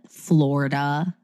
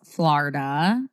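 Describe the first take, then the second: First: The first syllable sounds like 'floor'. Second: The first syllable does not sound like 'floor'. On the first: The speaker calls it wrong. "Like no. As if it's spelled with an O or something" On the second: The speaker calls it right. "that's how you say it"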